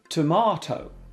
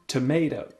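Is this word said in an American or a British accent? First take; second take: British; American. First: It is said in a British accent. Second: It is said in an American accent.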